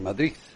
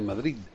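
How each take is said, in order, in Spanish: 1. El sonido final es un sonido th. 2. El sonido final es un sonido d. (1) "pronuncian como Z" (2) "en vez de"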